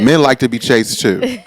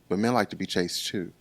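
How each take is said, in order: First: It is said louder. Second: It is said at normal volume.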